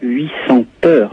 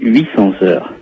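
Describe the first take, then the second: First: No linking sound joins the number to 'heures'. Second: A z sound links the number to 'heures'. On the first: The speaker calls it wrong. "on ne dit pas 800 heures" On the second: The speaker calls it right. "mais 800 heures"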